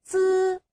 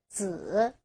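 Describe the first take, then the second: First: The pitch stays high and level. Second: The pitch dips low, then rises.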